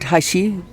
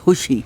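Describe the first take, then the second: First: The first vowel is an open 'ah' sound. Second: The first vowel is a short 'uh' sound. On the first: The speaker calls it wrong. "It's spelled Hashi, but that is wrong pronunciation" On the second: The speaker calls it right. "It's Hushi. I've been corrected"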